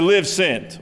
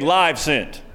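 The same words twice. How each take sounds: First: The word 'live' rhymes with 'give'. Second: The word 'live' rhymes with 'five'. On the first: The speaker calls it right. "we remind you each and every week to live sent" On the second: The speaker calls it wrong. "as our pilot said yesterday"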